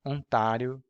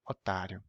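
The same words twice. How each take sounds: First: "Ontario" with a nasal first vowel. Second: "otário", first o fully oral; "otário" with no nasal air. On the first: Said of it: "First, nasal". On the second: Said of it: "And now sucker". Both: Shown as a demonstration.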